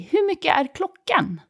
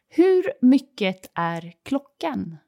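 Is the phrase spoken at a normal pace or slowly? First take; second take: normal; slowly. First: The phrase is spoken at a normal pace. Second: The phrase is spoken slowly.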